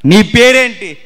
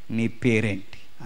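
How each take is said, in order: First: Louder, higher, thrown at the crowd; loud repeated question. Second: Lower, softer and slow, a solemn question; God asking gently. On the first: Preacher to congregation, loud probing question. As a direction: fire the question at the listeners. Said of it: "preacher repeats question to crowd". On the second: God questioning Jacob, slow solemn quiet question. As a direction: ask it quietly, weighing each word. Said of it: "అప్పుడు దేవుడు అన్నాడు". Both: Acted.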